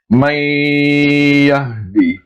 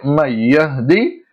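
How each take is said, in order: First: The joining nasal sound is held long. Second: The joining nasal sound is kept short. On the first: The speaker calls it right. "we have to stretch it two times its original length" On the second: The speaker calls it wrong. "it is not correct in terms of tajweed al-Quran"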